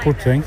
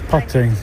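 First: The first vowel sounds like in 'put'. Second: The first vowel sounds like in 'putt'. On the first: It means placing something. The speaker calls it wrong. "not putting" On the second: It names the golf game. The speaker calls it right. "No, it's putting"

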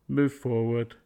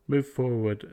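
Both takes have the same delivery.

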